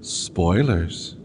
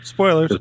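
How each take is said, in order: First: It is said in a put-on professorial voice. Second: It is said in an ordinary, plain voice. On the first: The speaker calls it right. "Let me put it in the proper professorial time" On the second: The speaker calls it wrong. "I didn't say that right though"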